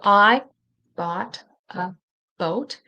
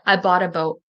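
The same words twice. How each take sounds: First: The T in bought is a clear T. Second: The T in bought is a quick D-like flap.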